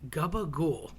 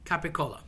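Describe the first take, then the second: First: It starts with g and ends clipped in -gool. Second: It starts with k and ends clearly in -cola. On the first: The speaker calls it wrong. "people tend to say gabagool. That just sounds disgusting" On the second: The speaker calls it right. "another mispronounced lunch meat. Capicola"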